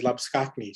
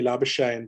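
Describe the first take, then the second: First: Labuschagne said as "lah-bus-KAKH-nee"; original surname pronunciation. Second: Labuschagne said as "LAB-uh-shayn"; anglicised surname. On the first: Shown as a demonstration. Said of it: "his surname is said by the commentators". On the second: Retold or imitated. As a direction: say Labuschagne the easy Australian way. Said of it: "he says, "Just call me Labuschagne".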